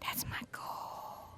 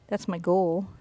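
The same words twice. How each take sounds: First: It is said in a whisper. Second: It is said in a normal voice.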